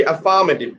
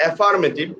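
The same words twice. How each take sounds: First: AFFIRMATIVE as a-FAA-ma-tiv, falling at the end; correct second-syllable stress. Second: AFFIRMATIVE with a flat-A start, af-far-ma-tiv, ending on a rise; wrong pronunciation. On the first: Teacher correcting the word for students, stressed a-FA-mative. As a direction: open with a weak "a" in AFFIRMATIVE, then stress FA. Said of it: "This should be affirmative". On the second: Teacher showing students what not to say, mispronounced AF-far-mative. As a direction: say AFFIRMATIVE as AF-far-mative, no weak first vowel. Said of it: "not affirmative".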